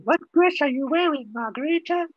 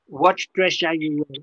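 First: Higher repeat with dress stressed; clarifying repeat. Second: Said in the usual way. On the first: Real, not acted. Teacher re-asking the confused student about her dress, higher. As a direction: ask it again brighter and higher, leaning on dress. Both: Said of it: "address I'm wearing".

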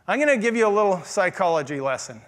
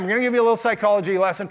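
First: Said in the usual way. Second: Quick repeat. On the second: Shown as a demonstration. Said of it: "Boy, some of you are excited about this".

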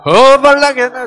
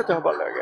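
First: Loud, higher Jeolla dialect 허벌나게 with the weight on 허벌나게; 전라도 사투리로 크게. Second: Jeolla dialect. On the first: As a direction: shout out the Jeolla word 허벌나게. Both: Shown as a demonstration. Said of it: "전라도 말로 하면 어떻게 돼요?".

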